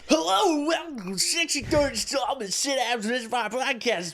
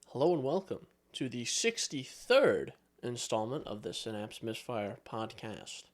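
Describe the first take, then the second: First: It is said in an excited, high-energy way. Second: It is said in a flat, low-energy way.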